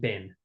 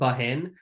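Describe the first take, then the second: First: It is said as one short syllable. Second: It is said as two syllables, following the spelling. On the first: "but it's pronounced bin" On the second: "It's like B A H E N, bahen"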